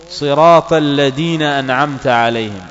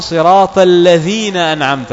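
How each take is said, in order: First: الذين said with a hard d, alladina; الذين with a plain d sound, the mistake; wrong d in الذين. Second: الذين with the right dh sound; correct dh in الذين. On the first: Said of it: "دال بدون نقطة". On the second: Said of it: "والصحيح". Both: Shown as a demonstration.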